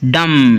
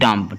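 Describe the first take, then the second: First: The final b sound is silent. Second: The final b sound is pronounced. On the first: The speaker calls it right. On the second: The speaker calls it wrong.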